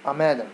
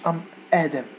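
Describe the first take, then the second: First: The two words run together as one word. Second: The two words are cut apart from each other. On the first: The speaker calls it right. "ام ادم ام ادم" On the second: The speaker calls it wrong. "ما تقولش ام ادم بحال داكشي عندكم تقطع"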